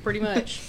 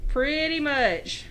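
First: Said in the usual way. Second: Slow, higher Southern drawl; exaggerated Southern accent. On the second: Agreeing about having a horrible accent, hammed-up Southern drawl. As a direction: stretch both words in a thick Southern twang.

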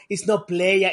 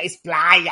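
First: "playa" said as English "play-uh". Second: "playa" said as Spanish "plah-yah", louder. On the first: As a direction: say "playa" like slang for player. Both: Retold or imitated.

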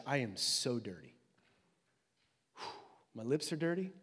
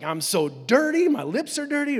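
First: Soft, subdued admission of shame; low, hushed dismay; dismayed confession. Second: Loud, high acted panic; hammed-up alarm; freaking out. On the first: Acted. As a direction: quietly voice someone realizing their own unworthiness. Isaiah's awed, dismayed confession voiced. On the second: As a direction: voice someone freaking out, pushing louder and higher. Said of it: "he's freaking out".

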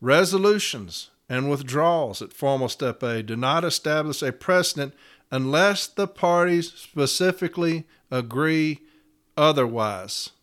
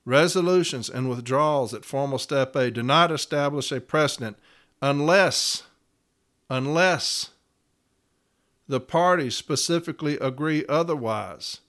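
First: Said in the usual way. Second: "unless" repeated with pauses before and after it; stress on unless. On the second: Shown as a demonstration. Steward rereading the clause for listeners, hammering "unless". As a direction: lean on "unless, unless" and let it hang. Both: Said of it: "Y'all hear that?".

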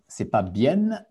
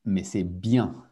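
First: Bien said with a final n sound, not nasal; teacher showing the wrong way to say bien; wrong pronunciation. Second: Bien said with a nasal vowel and no n; teacher showing the correct nasal bien; correct pronunciation. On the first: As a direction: demonstrate the mistake: pronounce bien with an n at the end. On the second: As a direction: demonstrate the right way: nasal vowel at the end of bien. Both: Shown as a demonstration. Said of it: "la prononciation".

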